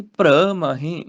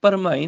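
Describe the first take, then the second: First: Slow ਪ੍ਰਮਾਹੇ as praa-maahe; joined consonants. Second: ਪਰਮਾਹੇ as par-maahe; wrong syllable split. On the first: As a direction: join p and r in ਪ੍ਰਮਾਹੇ and draw it out. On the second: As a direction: say ਪਰਮਾਹੇ with a vowel before r. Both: Shown as a demonstration. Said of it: "ਪਰਮਾਹੇ ਨਹੀਂ".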